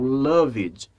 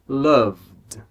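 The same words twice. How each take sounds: First: The ending is sounded as an extra syllable. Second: The V joins straight into a D sound. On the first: The speaker calls it wrong. "Nada disso" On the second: The speaker calls it right. "O som é loved"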